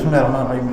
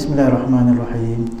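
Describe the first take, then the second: First: The phrase is recited quickly and run together. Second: The phrase is recited slowly and clearly. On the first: The reciter cannot reflect on the meaning. The speaker calls it wrong. "Baca cepat-cepat" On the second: The reciter can reflect on the meaning. The speaker calls it right. "kita baca pelan-pelan"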